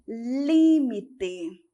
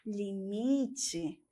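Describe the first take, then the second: First: It is said with the Spanish stress placement. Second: It is said with the Portuguese stress placement. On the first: "Em espanhol, nós temos limite" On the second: "Em português, nós temos limite"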